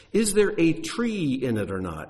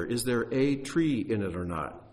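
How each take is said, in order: First: "a tree" picked out, higher pitched; stress on singular TREE. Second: "a tree" set apart in a calmer repeat; stress on A TREE. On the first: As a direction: lean firmly on "a tree" to show it is singular. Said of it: "It doesn't say trees, it's singular". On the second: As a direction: repeat it evenly, pointing up "a tree" as singular. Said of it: "it's singular". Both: Shown as a demonstration.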